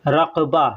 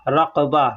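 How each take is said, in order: No difference in how they are said.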